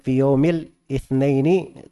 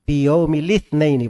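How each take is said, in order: First: An extra 'i' vowel comes before 'thnaini'. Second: The 'i' joins the 'l' as one syllable. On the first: The speaker calls it wrong. "itu bermasalah di timbangan syair" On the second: The speaker calls it right. "Jadi li. Piyomi li itsnaini bacanya"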